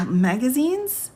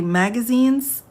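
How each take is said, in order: First: A rising, laughing question at the word; laughing disbelief. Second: Higher, slow, stunned question on Magazines?; Magazines? drawn out as a baffled double take; incredulous. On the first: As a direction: break into a laugh reading magazines?. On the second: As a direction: stop the reading and ask Magazines? in disbelief. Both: Real, not acted. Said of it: "Hold on, everybody".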